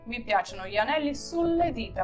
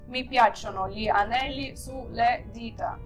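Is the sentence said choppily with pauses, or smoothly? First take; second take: smoothly; choppily. First: It is said smoothly, without pauses. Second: It is said choppily, with many pauses. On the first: The speaker calls it right. "як гарно ми плавно сказали одним словом" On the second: The speaker calls it wrong. "Ми б зробили дуже багато пауз, і воно так би звучало по-роботськи"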